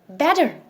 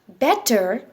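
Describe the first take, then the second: First: The middle consonant is a soft D-like sound. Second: The middle consonant is a clear T sound. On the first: "we call it better" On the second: "Instead of B E T T E R as better"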